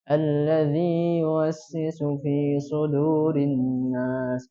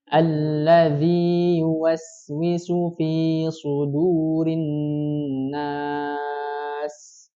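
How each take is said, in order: First: The vowels are flat and mumbled, barely moving. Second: The vowels are fully opened and clearly shaped. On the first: The speaker calls it wrong. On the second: The speaker calls it right.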